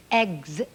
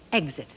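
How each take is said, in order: First: "Exit" with a rising questioning tune; rising try. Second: "exit" said with a firm falling tune; falling confirm. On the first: Teacher trying out the word "Exit" for children. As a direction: sound out "Exit" tentatively, lifting at the end. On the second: Teacher confirming the word "exit" for children. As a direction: settle "exit" down, confident and final. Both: Shown as a demonstration. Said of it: "And you know the next part".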